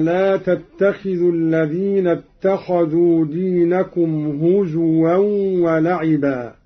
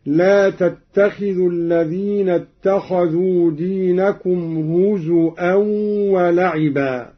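First: Said in the usual way. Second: هزوا said "huzu'an", with a glottal stop; hamza for waw. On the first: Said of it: "قرأ قالون بهمز الواو". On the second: Shown as a demonstration. Teacher demonstrating Qalun's reading, هزوا pronounced "huzu'an" with hamza. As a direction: break هزوا with a hamza where the w would be. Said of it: "بهمز الواو هكذا".

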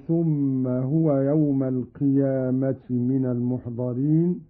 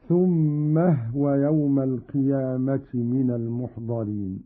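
First: Said in the usual way. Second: هو after ثم said hwa, thumma-hwa run together; vowelless ha. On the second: Shown as a demonstration. Teacher demonstrates Qalun's reading, ثم هو as thummahwa. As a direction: join ثم هو as "thummah-wa", the h unvowelled. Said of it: "بإسكان الهاء".

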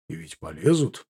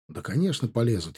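First: Полезут rising as a question; low questioning rise. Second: Полезут falling as a settled statement; falling answer. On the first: Veteran asking the officer about an attack, полезут rising in question. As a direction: ask it low, lifting полезут at the end. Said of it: "спросил ветеран". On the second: Officer confirming the attack to veteran, полезут falling softly. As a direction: answer quietly, letting полезут drop. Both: A narrator's reading.

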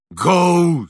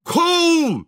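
First: Limp, listless. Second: High-pitched yell to drive a horse; shout at a horse. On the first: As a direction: urge the horse on without conviction. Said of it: "сказал Шаринов вяло". (вялый оклик лошади) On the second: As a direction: holler to get the horse moving. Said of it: "закричал Шаринов на лошадь". (крик на лошадь) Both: A narrator's reading.

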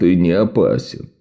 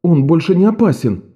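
First: Low, grim and downbeat; glum. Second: Said in the usual way. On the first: A narrator's reading. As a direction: say it with the corners of your mouth down. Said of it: "опустив уголки рта".

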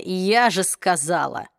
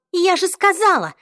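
First: Slow, lower mocking echo of "я же сказала"; mocking parrot. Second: High, loud I-told-you-so; high loud triumphant told-you-so. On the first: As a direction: drawl "я же сказала" back at her, mocking. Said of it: "Ах, это вечное". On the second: Acted. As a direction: throw it at them, vindicated.

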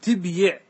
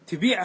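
First: تبيع said tib-yiʕ, silent-vowel b then a sounded y; original form. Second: تبيع said tibīʕ, long i straight after the b; derived form. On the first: (تبيع بسكون الباء وكسر الياء) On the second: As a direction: say تبيع smoothly as ti-bīʕ, no y sound. (تبيع بكسر الباء ومدّ الياء) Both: Shown as a demonstration. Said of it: "أصله".

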